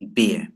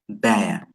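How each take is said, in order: First: The vowel sounds like the one in 'beer'. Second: The vowel sounds like the one in 'bear'. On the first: The speaker calls it wrong. "Basic or beginners pronounce this word as beer" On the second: The speaker calls it right. "But actually it is bear. It's not beer"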